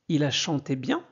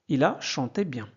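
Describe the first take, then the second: First: The voice rises at the end. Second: The voice falls at the end. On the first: It is asked as a question. The speaker calls it wrong. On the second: It is stated as a fact. The speaker calls it right. "Pas la peine de, de monter la, euh, la voix"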